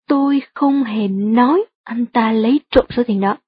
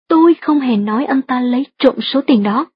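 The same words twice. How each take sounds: First: The word nói is stressed. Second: The word tôi is stressed. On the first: The speaker implied it but did not actually say it. "Nếu bạn nhấn mạnh từ nói trong câu" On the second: Someone else said it, not the speaker. "nếu nhấn mạnh từ tôi trong câu thứ hai như thế này"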